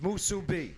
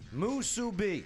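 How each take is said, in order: First: The word is said quickly, run together. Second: The word is said at a slow, plain pace.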